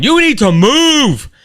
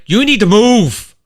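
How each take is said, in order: First: Much higher and louder, drawn out word by word; exasperated slow shout; slow road rage yell. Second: Loud, higher, snapping at the driver ahead; mock road rage. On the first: Retold or imitated. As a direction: spell it out to the slow driver. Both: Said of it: "a little road rage going on".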